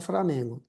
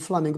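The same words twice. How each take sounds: First: The second consonant is pronounced as an R. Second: The second consonant is pronounced as an L. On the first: "para Flamengo" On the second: "de Flamengo"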